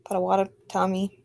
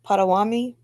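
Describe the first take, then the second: First: Potawatomi spelled out slowly, every syllable "Po-ta-wa-to-mi"; slow down and sound out Potawatomi; careful Potawatomi. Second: Potawatomi rushed, middle syllables swallowed as "Potawami"; slurred Potawatomi. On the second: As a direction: blur through Potawatomi on a stumble. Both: Real, not acted. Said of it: "self-corrected repeat".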